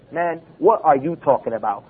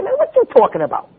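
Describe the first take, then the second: First: Lower, carefully worded mock-educated question; over-proper challenge. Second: High-pitched, casual street-style challenge. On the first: Preacher showing the needlessly proper way to object, over-proper. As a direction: spell out every word, stiffly correct. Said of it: "We don't have to sit there and say". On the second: Preacher showing the natural way to object, casual and high-pitched. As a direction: pitch it way up and run the words together. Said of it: "We say". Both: Shown as a demonstration.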